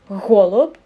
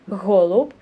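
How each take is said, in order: First: The first sound is pushed out with effortful breath. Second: The same.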